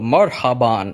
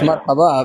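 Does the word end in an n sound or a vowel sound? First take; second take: n sound; vowel sound. First: The word ends with an n sound. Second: The word ends without an n sound. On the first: It sounds formal and condescending. The speaker calls it wrong. "I've never in my entire life heard anyone say marhaban" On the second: It is the everyday greeting people actually use. The speaker calls it right. "it's marhabab"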